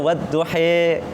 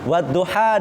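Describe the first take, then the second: First: The final vowel is an 'e' sound. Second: The final vowel is an open 'a' sound. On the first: It is read in another recitation style. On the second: It is read in the Hafs recitation style.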